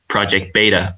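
Beta is said with an American accent.

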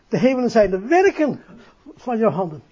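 The emphasis falls on the word werken. The speaker calls it right. "Dus het accent valt niet op hemelen, maar op werken"

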